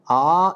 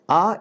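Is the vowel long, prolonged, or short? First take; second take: long; short. First: The vowel is held about twice as long. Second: The vowel is held very briefly. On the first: "A is Dirgha" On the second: "A is Hraswa"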